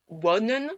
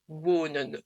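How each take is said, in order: First: "wonen" with a short, open first O; wrong short O. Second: "wonen" slowly, with a long closed French O. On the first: Teacher showing what not to say, wrong short O. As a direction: say "wonen" with a brief open "o", like "wonnen". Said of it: "on ne dit pas". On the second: Teacher showing learners the right way, long O. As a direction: say "wonen" stretching the rounded "oo". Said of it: "Donc le O, comme en français". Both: Shown as a demonstration.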